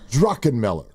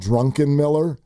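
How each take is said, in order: First: No n sound comes before the k. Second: An n sound comes before the k. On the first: The speaker calls it right. "It's Druckenmiller" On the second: The speaker calls it wrong. "that first N is not in his name"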